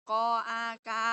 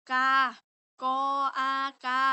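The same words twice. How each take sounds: First: Said in the usual way. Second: Slow spelling demo. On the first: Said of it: "แม่นบ่". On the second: Shown as a demonstration. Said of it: "ก็คือ".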